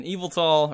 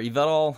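First: Yveltal said like "evil-tall"; first pronunciation. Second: Yveltal said as "ee-VEL-tall"; alternative pronunciation. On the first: Deck presenter offering one way to say a Pokemon name, first pronunciation. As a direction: say Yveltal with the stress up front, EE-vul-tall. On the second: Deck presenter offering another way to say a Pokemon name, alternative pronunciation. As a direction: say Yveltal with the stress on the middle syllable. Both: Shown as a demonstration. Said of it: "however you wanna pronounce it".

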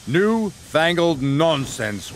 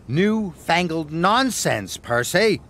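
First: Slow wheezy scoff; old engine's slow wheeze; wheezing. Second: Slow, grand pronouncement; Edward's mock-grand reply; grandly. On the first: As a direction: wheeze it out with disdain. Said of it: "wheezed Gordon". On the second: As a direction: puff up and sound important. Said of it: "puffed Edward, as grandly as he could". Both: A narrator's reading.

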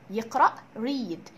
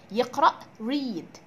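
No difference in how they are said.

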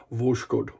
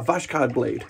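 First: Said in the usual way. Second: A light mock Russian accent on "Vashkod". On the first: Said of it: "I did not say that". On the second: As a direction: say "Vashkod blade" with a hint of a playful Russian accent. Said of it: "That was my wonderful Russian accent".

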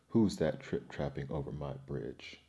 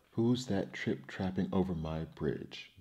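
First: Lower-pitched troll, understated glee; booming with glee. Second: Understated booming troll, little change of voice; booming fearsome troll. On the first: Troll challenges the third goat, booming lower with glee. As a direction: drop the voice for a mildly gleeful troll. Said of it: "boomed the troll with glee". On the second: Troll challenges goat crossing his bridge, mildly booming. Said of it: "boomed the fearsome troll". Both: A narrator's reading.

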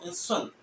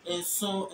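First: "and son" closed on a stopped n; Fanti stop. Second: "and so" as "enso", open vowel ending; Twi pronunciation. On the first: Teacher showing the Fanti stop, "and son" closed off. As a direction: cut "and son" short on the final n. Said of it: "the Fanti has this stop". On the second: Teacher giving seven in Twi, "and so" left open. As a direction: end "and so" on the vowel, without a stop. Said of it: "But she's in so". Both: Shown as a demonstration.

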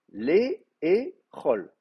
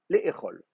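First: "les et chol" drawn out very slowly, each syllable stretched; slowly spelled out. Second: Said in the usual way. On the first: Shown as a demonstration. Teacher to students, spelling the Hebrew form slowly. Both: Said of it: "il faut manger".

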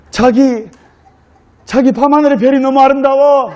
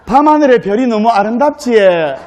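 First: Higher-pitched, acted Seoul accent; Seoul bride. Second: Acted Gyeongsang dialect lilt; Gyeongsang bride. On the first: Bride admires night sky to her groom in Seoul accent. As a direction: coo in romantic Seoul speech. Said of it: "서울 신부가 서울 신랑에게". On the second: Bride admires night sky to her groom in Gyeongsang accent. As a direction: admire it in broad Gyeongsang speech. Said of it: "경상도 신부가".

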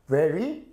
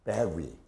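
First: Very with a buzzing V, rising; labiodental V. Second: Very said as berry, low and falling; bilabial B. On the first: Teacher contrasting very and berry, very with a V. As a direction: start very with teeth on lip, voice lifting. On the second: Teacher showing the wrong sound, very as low berry. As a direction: say very with both lips, like berry. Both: Shown as a demonstration. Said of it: "이걸 양순으로 하면".

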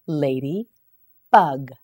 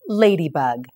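First: Slow model word. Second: Said in the usual way. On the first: Shown as a demonstration. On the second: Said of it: "You say it".

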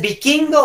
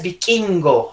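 First: Said in the usual way. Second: "vikingo" con K explosiva; K marcada. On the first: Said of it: "¿Dices vikingo o dices vikingo?". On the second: Shown as a demonstration. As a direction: separa "vi" y suelta fuerte la K de "vikingo". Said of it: "ya no sería con K". ("vikingo" con ka exagerada)

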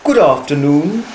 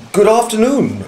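First: Lightly voiced polite little bear; small, clear voice. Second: Higher-pitched greeting, falling at the end; a hint of a polite gentleman replying; lightly voiced Mister Brown. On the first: Bear greeting a couple at the station, small clear voice. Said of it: "it said in a small, clear voice". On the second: Man returning the bear's greeting, lightly voiced higher-pitched reply. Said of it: "replied Mister Brown". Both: A narrator's reading.

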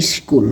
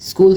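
First: "স্কুল" said as iskul; added initial vowel. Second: Said in the usual way. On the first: Shown as a demonstration. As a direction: put an i before the sk of "স্কুল". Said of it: "স্বরাগমের উদাহরণ". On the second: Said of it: "এগুলো হচ্ছে আদি".

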